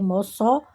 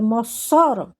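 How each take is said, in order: First: The stress is on the last syllable. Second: The stress is on the middle syllable. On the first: The speaker calls it right. "a sílaba tônica é Mossoró" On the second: The speaker calls it wrong. "Ou se fosse Só, seria Mossoró"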